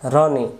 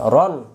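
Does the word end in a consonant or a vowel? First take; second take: vowel; consonant. First: The word ends with a short vowel sound. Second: The word ends on a bare consonant sound. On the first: The speaker calls it wrong. "রনি পড়া যাবে না" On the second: The speaker calls it right. "এটা সাকিন দিবেন"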